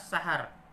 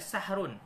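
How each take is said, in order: First: The h is followed by an a vowel. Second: The h is followed directly by r, no vowel. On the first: "boleh dibaca juga dengan fathah" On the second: "Asalnya dari sahrun"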